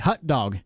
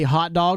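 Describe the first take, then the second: First: The first word has the vowel of 'hut'. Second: The first word has the vowel of 'hot'. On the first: The speaker calls it wrong. "I know people that call it hut dog. H U T" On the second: The speaker calls it right. "Do you guys say hot dog or do you say it wrong?"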